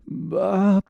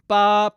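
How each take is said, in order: First: The voice is gritty and rough. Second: The voice is clear and brassy, without texture.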